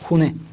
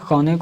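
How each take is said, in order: First: The first vowel is a rounded 'oo' sound. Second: The first vowel is an open 'a' sound. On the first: "खौने को खूने भी बोलते हैं खूने दुरुस्त है" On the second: "खौने दुरुस्त है"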